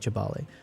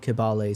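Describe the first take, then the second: First: The name begins with a ch sound. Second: The name begins with a k sound. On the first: "they pronounce the K as a C H" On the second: "sometimes they just do Kibale"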